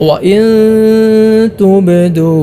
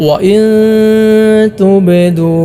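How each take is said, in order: No difference in how they are said.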